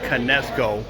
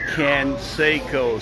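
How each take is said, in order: First: The s sound comes after the e sound. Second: The s sound comes before the e sound. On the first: The speaker calls it wrong. "not Canesco" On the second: The speaker calls it right. "It's Jose Canseco, C A N S E C O"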